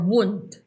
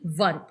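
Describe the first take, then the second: First: The name begins with a W sound. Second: The name begins with a V sound. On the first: This is the local Philippine pronunciation. "Wund na lang sa atin kasi nasa Philippines naman tayo" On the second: This is the German pronunciation. "W for German is pronounced as V"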